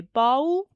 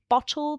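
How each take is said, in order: First: "bowl" for bottle, middle t gone, rising; child's version of bottle; middle sound dropped. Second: Said in the usual way. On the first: Shown as a demonstration. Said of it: "they might say bowl". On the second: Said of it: "a two-syllable word like bottle".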